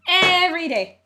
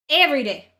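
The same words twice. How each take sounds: First: Every day shouted higher and louder, strained; bigger exasperated outburst. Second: Louder, half-shouted Every day; exasperated outburst. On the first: Ranting streamer fed up with people, strained shout. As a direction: push Every day up into a near yell. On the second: Ranting streamer exasperated at people, loud outburst. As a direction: blurt Every day in disbelief. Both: Real, not acted.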